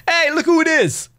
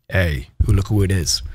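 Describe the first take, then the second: First: Much higher, squeaky hello; high squeaky greeting. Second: Much lower, deep hello; deep voice greeting. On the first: Greets arriving viewer, high voice. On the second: Redoes greeting in low voice. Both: Pretend.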